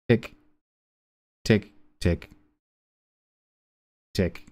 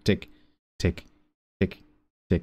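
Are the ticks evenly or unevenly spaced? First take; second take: unevenly; evenly. First: The ticks come at unevenly spaced intervals. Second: The ticks come at evenly spaced intervals. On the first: An irregular cycle that is only roughly periodic. "It's kind of like ... it's not regular" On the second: A regular, steady cycle. "It's it's not like"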